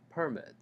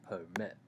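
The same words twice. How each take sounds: First: "permit" stressed on the first syllable, PER-mit; strong PER, weak mit in "permit". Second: "permit" stressed on the second syllable, per-MIT; weak per, strong MIT in "permit". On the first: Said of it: "the first syllable is much stronger". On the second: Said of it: "the second syllable". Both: Shown as a demonstration.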